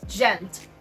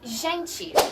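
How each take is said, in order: First: It is said with a European Portuguese pronunciation. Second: It is said with a Brazilian Portuguese pronunciation. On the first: "In Portuguese from Portugal, they say" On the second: "in Brazilian Portuguese ... they say"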